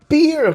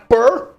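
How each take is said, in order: First: The vowel is a long 'ee', like peer. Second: The vowel is an open 'eh', like per. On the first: The speaker calls it right. "fala peer" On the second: The speaker calls it wrong. "Que per? De onde você tirou per?"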